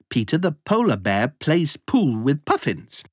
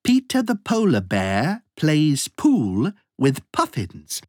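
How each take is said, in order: First: The sentence is spoken at a fast pace. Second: The sentence is spoken at a moderate pace.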